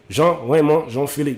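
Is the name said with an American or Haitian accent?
Haitian. The name is said in a Haitian way.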